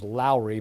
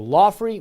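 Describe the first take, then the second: First: The name is said without an f sound. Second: The name is said with an f sound. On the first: "the English pronunciation is Lowry" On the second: "I think Lawfrey Creek is uh, something I'm aware of"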